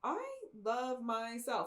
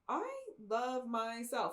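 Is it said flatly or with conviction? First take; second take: conviction; conviction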